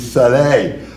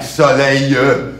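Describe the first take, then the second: First: The word ends without an extra vowel sound. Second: An extra E sound is added at the end. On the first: The speaker calls it right. "it's soleil" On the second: The speaker calls it wrong. "would always put emphasis on an E, and sometimes the word didn't even have an E"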